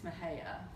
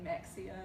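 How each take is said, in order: First: The middle consonant is an h sound. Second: The middle consonant is a ks sound. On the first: It is the local way of saying it. The speaker calls it right. "it's Mahia" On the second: It is read the way it is spelled. The speaker calls it wrong. "pronounced M E X I A, Mexia"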